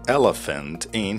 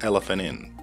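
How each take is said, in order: First: The T sound at the end of 'elephant' is pronounced. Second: The T sound at the end of 'elephant' is dropped. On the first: "he didn't say elephant in" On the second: "he said elephant in"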